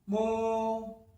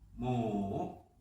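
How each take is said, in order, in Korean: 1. 음이 높은 상태로 평평하게 유지돼요. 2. 음이 낮게 내려갔다가 올라가요.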